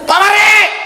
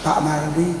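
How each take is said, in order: First: The name is called out loudly, with force. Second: The name is said softly, without force. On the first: This is a real crying out. The speaker calls it right. "itu berseru" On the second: It is not a real crying out. The speaker calls it wrong. "Berseru itu bukan gini"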